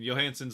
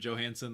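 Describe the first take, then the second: First: The name is pronounced the Swedish way. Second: The name is pronounced the English way. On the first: "the Swedish way to pronounce it" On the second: "the guys on the telecast are going to call him"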